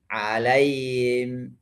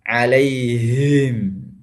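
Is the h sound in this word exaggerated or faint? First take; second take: faint; exaggerated. First: The h sound is weak and barely audible. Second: The h sound is pushed hard from the chest. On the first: "hilang atau tidak terdengar dengan baik" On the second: "jangan masuk ke dada ... itu berlebihan"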